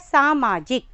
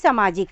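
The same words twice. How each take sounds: First: The first vowel is long, saa-maa-jik. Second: The first vowel is short, as in samaj. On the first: The speaker calls it right. "जबकि ये क्या है" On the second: The speaker calls it wrong. "उन्हें लगता है कि समाज से ये शब्द निकला है तो हम इसको बोलेंगे भी सामाजिक"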